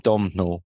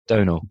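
First: "Domhnall" wrongly read as spelt; mispronounced name. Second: "Donal" with a long O, modelling the name; corrected pronunciation. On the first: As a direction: say "Domhnall" as DOM-nal, M sounded. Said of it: "I kept calling him Domhnall". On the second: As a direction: say "Donal" as DOE-nal, silent M. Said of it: "Oh, no, no, sorry". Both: Shown as a demonstration.

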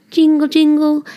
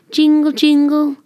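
The two takes are said the same way.

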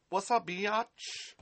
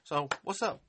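First: Slow, sassy slang greeting; drawn-out mock street greeting. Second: Said in the usual way. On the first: To a hater in the chat, slow teasing slang greeting. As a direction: stretch it out slowly, cocky and teasing.

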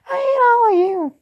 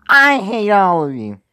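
First: Put-on high-pitched girlish yell, loud. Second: Slow, loud, high-pitched yell. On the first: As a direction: scream it in a shrill girl voice. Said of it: "You expect me to do a fucking girl voice". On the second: Acted. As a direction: belt it out at full volume. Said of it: "so I can yell as fucking loud".

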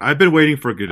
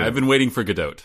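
First: GADOT said like Godot, no final T; silent T. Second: GADOT with a long O and a clear final T; long O in Gadot, closed with a T; sounded T. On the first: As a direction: end Gadot on an open O. Pun with silent T, echoed with T. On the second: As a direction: finish Gadot on a crisp T. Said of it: "the T is definitely pronounced". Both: Shown as a demonstration.

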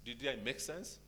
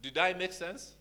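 First: Said in the usual way. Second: Higher and louder, rising question; louder check-in. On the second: Shown as a demonstration. Pastor checking the congregation follows, louder. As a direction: call it out to the room.

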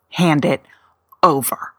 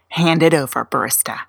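First: Whispered order. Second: Said in the usual way. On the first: Pretend. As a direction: hand it over in a breathy whisper. Repeat of the order to the barista.

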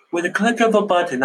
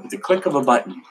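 First: Said in the usual way. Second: Playful put-on accent on "With the click of a button"; jokey mock accent. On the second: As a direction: toss the line out in a random comic accent. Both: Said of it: "throwing random accents at you today".

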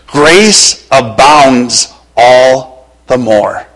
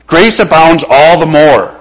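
First: Slow, drawn-out grace abounds. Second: Said in the usual way. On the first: Acted. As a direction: stretch grace abounds all the more. Preacher stretches key verse.

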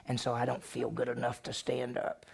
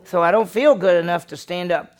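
First: Much softer, trailing excuse. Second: Louder, pleading 'feel'; raised excuse. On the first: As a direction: let the excuse fade to a murmur. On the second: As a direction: press the excuse out loudly. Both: Retold or imitated. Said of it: "What did she say?".

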